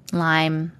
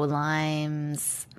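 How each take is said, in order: First: Lyme with no s, a single clipped syllable; trying Lyme. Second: Lyme's with a final z sound, said low and soft; trying Lyme's. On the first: Checking the disease name aloud, Lyme without the s. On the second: Checking the disease name aloud, Lyme's with a final z. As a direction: test out Lyme's with the s on the end. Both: Shown as a demonstration.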